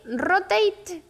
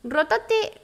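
First: "rotate" corrected to English ROH-tayt; "rotate" with an English ei vowel, rising then falling; English correction. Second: "Rotate" read the Spanish way, every letter sounded as in Spanish; Spanish-style reading. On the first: Correcting herself on the manual, English "rotate". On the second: Reading the mic manual, the Spanish way. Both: Shown as a demonstration.

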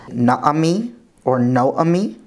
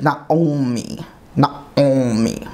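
First: NAAMI or NOAMI, vowels with no nasal sound; careful modern Hebrew Naami or Noami; modern Hebrew pronunciation. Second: NAOMI with the Ayin voiced in the nose; careful demo of Naomi with nasal Ayin. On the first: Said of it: "which in modern Hebrew would be". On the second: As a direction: say Naomi as na-ngo-mi. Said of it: "here it would be something like". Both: Shown as a demonstration.

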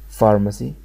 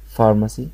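Both takes have the same delivery.

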